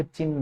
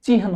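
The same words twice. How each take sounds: First: चिन्ह said chinn, long n, no h sound; wrong doubled n. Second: चिन्ह said chi-han, h before n; correct h before n. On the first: Teacher showing the exam mistake, चिन्ह said chinn. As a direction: drop the h and hold the n in चिन्ह. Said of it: "चिन्ह नहीं होता". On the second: Teacher giving the exam form, चिन्ह said chi-han. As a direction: sound the h ahead of the n in चिन्ह. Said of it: "चिन्ह होता है". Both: Shown as a demonstration.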